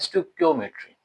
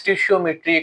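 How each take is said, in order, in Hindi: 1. शब्द 'stik-yo' से शुरू होता है, k की आवाज़ के साथ। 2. शब्द 'stish-ee-o' से शुरू होता है, sh की आवाज़ के साथ। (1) "असल में ये वर्ड क्या है?" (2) "कुछ लोग इसको पढ़ते हैं स्टिशियोमेट्री"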